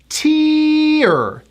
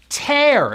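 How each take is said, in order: First: The vowel sounds like the word ear. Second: The vowel sounds like the word air. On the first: A drop running down the face when crying. "It has that high E sound to an R" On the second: To pull something apart. "I call it the air vowel"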